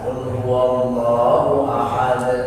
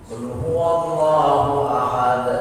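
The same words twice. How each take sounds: First: The final bounce is light and natural. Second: The final bounce is pressed hard and exaggerated. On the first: The speaker calls it right. "Jadi kol-kolah pantulan biasa" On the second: The speaker calls it wrong. "Jadi ditekan"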